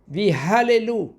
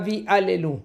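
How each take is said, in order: First: The second word starts with an h sound. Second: The second word starts directly with a vowel. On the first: It means to praise. The speaker calls it right. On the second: It refers to idols. The speaker calls it wrong. "pas Vi Allelu"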